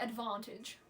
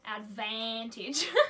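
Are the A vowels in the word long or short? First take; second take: short; long. First: The A vowels are short and ordinary. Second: The A vowels are stretched out long. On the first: The speaker calls it wrong. "Not like advantage" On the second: The speaker calls it right. "You gotta elongate all of the A's"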